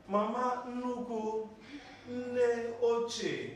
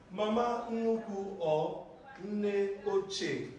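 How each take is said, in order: First: Mama Nuku said slowly and spaced, Nne Oche stressed on Nne; slow correction. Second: Mama Nuku or Nne Oche, spoken slowly with each word kept apart; slow model phrase. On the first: Teacher correcting a student's mispronunciation, slowly. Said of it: "Mama Nufuma". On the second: Teacher modelling grandma names for the students, slowly. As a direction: spell out both names slowly for the class. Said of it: "Either you say Mama Nuku or you say what?". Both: Shown as a demonstration.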